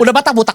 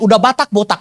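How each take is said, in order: First: The phrase is repeated at a faster pace. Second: The phrase is repeated at a slower pace.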